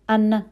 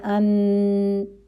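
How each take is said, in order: First: The n sound stops abruptly with no hum. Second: The n sound hums on briefly before ending. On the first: The speaker calls it wrong. "हम ऐसे नहीं पढ़ रहे" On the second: The speaker calls it right. "ना बहुत ज़्यादा चल रही है ना रुक रही है फ़ौरन"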